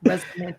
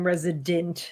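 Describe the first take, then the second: First: "Resident" said as Resonant, with n replacing the d; intended title "Resonant". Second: "resident" as three syllables, REZ-ih-dent; mispronounced as "resident". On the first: Shown as a demonstration. Co-host repeats the comic's real title, "Resident" said as REZ-nent. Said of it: "I'm saying Resident". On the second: Retold or imitated. Co-host quotes what everyone mishears, "resident" with a d. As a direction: say "resident" with a clear d in the middle. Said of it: "Everyone thinks Bruce keeps saying resident".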